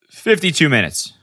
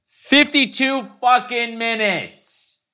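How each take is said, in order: First: Higher-pitched, incredulous readout; restrained disbelief before the outburst. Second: Very high, slow, drawn-out disbelief; comic high-pitched outrage, every word held; exasperated squeal. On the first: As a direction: read the drive time in dismay. Reacting to the GPS time. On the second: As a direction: stretch it out in a strained high squeal. Repeats GPS time in outrage. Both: Retold or imitated.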